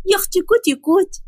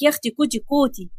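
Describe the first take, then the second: First: Put-on high, playful baby-talk coo; high-pitched cutesy wife voice; cutesy coaxing. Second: Grandfather lightly mimicking cutesy baby talk; understated mock cooing; mocking imitation. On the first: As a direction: coax a sulking husband with sweet teasing. Fatma cutely coaxing her husband. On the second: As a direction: quote the coo back with mild scorn. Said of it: "بقى بتقول لك".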